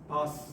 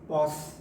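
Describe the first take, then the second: First: The vowel is a short 'a' sound. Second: The vowel is a long 'aw' sound. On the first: The speaker calls it wrong. "the word gets mispronounced as pass" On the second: The speaker calls it right. "the word should be pronounced as pause"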